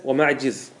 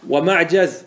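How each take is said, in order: First: ومعجز said "wa-ma'jiz", with an i; kasra form. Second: ومعجز said "wa-ma'jaz", with an a; fatha form. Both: Shown as a demonstration. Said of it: "الكسر والفتح".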